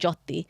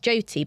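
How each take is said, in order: First: The name is said in its original pronunciation. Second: The name is said in a simplified, anglicized way. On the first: It is the name as it really is. The speaker calls it right. "it's actually" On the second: It is made easier for others to say. The speaker calls it wrong. "I just said it like that because I thought it'd just be easier for them"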